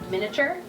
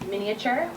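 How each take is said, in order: First: The middle 'a' syllable is dropped. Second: The middle 'a' syllable is clearly pronounced. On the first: "I've heard people say miniature" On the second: "You can pronounce it with the A"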